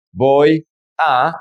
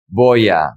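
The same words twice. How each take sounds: First: "Voy a" as two separate words, pause between. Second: "voy a" run together as one word, falling; linked words. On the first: Teacher showing the words before joining them, said separately. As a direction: say "Voy", stop, then "a" on its own. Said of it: "how do we pronounce these words together". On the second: Teacher showing how the words sound together, linked. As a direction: glide from "voy" straight into "a" without a break. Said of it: "is gonna be". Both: Shown as a demonstration.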